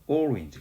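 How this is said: It is pronounced with Korean sounds. This is how the word changed after arriving in Korea. "우리나라에 들어와서 오렌지가 됐단 말이야"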